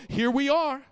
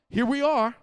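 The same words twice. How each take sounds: The two takes are said the same way.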